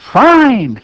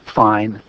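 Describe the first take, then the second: First: The fine sounds cheerful and happy. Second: The fine sounds flat and not happy. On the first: The speaker is truly content. The speaker calls it right. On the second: The speaker is not really content. The speaker calls it wrong.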